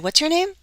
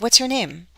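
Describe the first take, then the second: First: The voice rises at the end. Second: The voice falls at the end. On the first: The question is being repeated. The speaker calls it wrong. "I don't say" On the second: The question is asked for the first time. The speaker calls it right. "the first time I say this kind of question, my voice typic- typically goes down"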